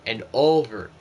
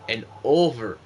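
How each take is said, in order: Both takes have the same delivery.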